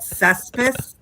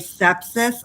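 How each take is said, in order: First: It is said as 'cess-pis'. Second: It is said as 'sep-sis'. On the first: The speaker calls it wrong. "the way Rick says it" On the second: The speaker calls it right. "I can no longer say sepsis"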